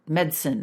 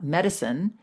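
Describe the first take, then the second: First: It is said with a British pronunciation. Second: It is said with a non-British pronunciation. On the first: "they would also say medicine" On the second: "not medicine"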